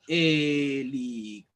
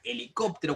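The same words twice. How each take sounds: First: HELICÓPTERO said slowly, syllable by syllable; split into syllables. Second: Said in the usual way. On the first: Shown as a demonstration. Teacher showing pupils how to separate helicóptero, syllable by syllable. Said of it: "si nosotros sabemos separar". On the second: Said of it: "y decimos ya".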